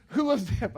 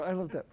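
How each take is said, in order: First: Mock cheery call, higher and louder; sing-song call. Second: Said in the usual way. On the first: Mom repeating her dip offer, cheery sing-song call. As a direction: toss it out brightly. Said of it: "So she goes". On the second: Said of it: "I go".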